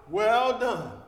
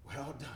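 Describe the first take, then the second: First: Booming pronouncement of Well done; proclaimed. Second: Much softer, tender repeat of Well done; hushed, tender Well done; soft echo. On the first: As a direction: ring out louder, like a verdict. God's praise at the last day. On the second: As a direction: let it fall gently. Echo of God's praise. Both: Acted.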